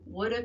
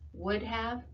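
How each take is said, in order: First: It is reduced and run together as one word. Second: It is said as two full, clear words. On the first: The speaker calls it wrong. "things people say that show they're not enunciating" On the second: The speaker calls it right. "What you should be saying"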